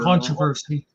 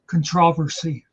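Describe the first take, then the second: First: It is said the North American way. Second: It is said the British way.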